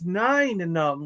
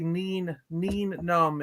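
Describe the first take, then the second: First: The first word sounds like the number nine. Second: The first word does not sound like 'nine'. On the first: This is how the actor himself says it. "it's nine Num, like a like the number nine" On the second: This is how the making-of documentary says it. "they do say Neen Neen Num in the Return of the Jedi making of"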